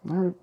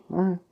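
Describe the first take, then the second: No difference in how they are said.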